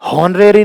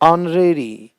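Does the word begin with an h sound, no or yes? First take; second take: yes; no. First: The word starts with an h sound. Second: The word starts with a vowel sound. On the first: The speaker calls it wrong. "नहीं" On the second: The speaker calls it right. "एच का उच्चारण नहीं होता"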